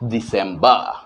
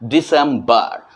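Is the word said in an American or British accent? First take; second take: British; American. First: It is said with a British accent. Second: It is said with an American accent. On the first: "सही pronunciation की तो हमें करना है दिसंबर" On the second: "American English के हिसाब से दिसंबर"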